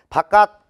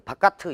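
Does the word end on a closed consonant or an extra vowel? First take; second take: closed consonant; extra vowel. First: The word ends on a closed, unreleased consonant. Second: The word ends with an extra released vowel. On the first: The speaker calls it right. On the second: The speaker calls it wrong.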